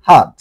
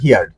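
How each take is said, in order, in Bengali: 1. স্বরধ্বনিটি 'her'-এর স্বরধ্বনির মতো শোনায়। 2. স্বরধ্বনিটি 'here'-এর স্বরধ্বনির মতো শোনায়। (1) "এটা হবে হাদ" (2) "এটা হিয়ার্ড হবে না"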